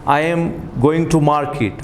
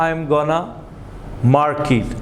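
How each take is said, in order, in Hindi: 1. 'going to' पूरा बोला जाता है, दो अलग शब्दों की तरह। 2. 'going to' छोटा होकर एक शब्द जैसा बोला जाता है। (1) "वो कहता है I am गोइंग टू market" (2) "वो गोइंग टू को शॉर्ट कर देता है"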